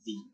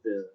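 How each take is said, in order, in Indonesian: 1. Vokalnya adalah bunyi 'ee' yang panjang. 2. Vokalnya adalah bunyi 'uh' netral yang pendek. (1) "tidak boleh the" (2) "tetap dibacanya the"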